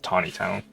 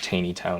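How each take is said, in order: First: The first syllable sounds like 'taw'. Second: The first syllable sounds like 'tay'. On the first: The speaker calls it right. "it's Tawny Town" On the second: The speaker calls it wrong. "it's not Taney Town"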